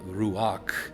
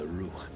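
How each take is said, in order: First: An extra 'a' vowel splits it into two syllables. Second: It is said as one syllable, no 'a'. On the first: The speaker calls it wrong. "in modern Hebrew we would say uh, ruach, because they're putting a default a in between" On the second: The speaker calls it right. "it would more correctly, I believe, be pronounced the ruch instead of ruach"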